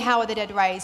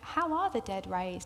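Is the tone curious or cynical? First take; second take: cynical; curious. First: It is asked in a cynical, challenging tone. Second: It is asked with genuine, open curiosity.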